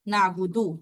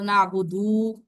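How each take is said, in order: First: The final vowel is kept short. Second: The final vowel is stretched long. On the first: The speaker calls it right. "यहाँ पे लंबा नहीं हो रहा" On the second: The speaker calls it wrong. "आवाज को लंबा कर दोगे"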